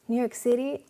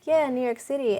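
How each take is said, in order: First: "New York City?" as a higher, eager question rising at the end; excited question. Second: Said in the usual way. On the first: Retold or imitated. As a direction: her eyes light up as she asks. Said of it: "her eyes just lit up". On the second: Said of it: "And I was just like".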